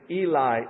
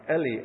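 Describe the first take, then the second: First: The word is said with English-style vowel sounds. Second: The word is said with Hebrew-like vowel sounds. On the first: The speaker calls it wrong. "I'm anglicizing it" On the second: The speaker calls it right. "It'd be something like Eli"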